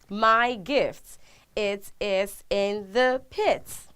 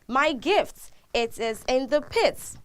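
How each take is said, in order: First: The sentence is spoken slowly and deliberately. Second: The sentence is spoken at a normal pace.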